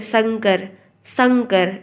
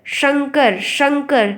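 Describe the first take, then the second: First: शंकर said as "sankar"; no whistle in s. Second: शंकर said as "shankar", higher pitch; whistling sh. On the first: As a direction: begin शंकर with a plain "s", not "sh". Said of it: "इसमें सीटी नहीं निकल रही है". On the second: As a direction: begin शंकर with a clear hushing "sh". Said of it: "जब सीटी वाला सा निकलता है". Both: Shown as a demonstration.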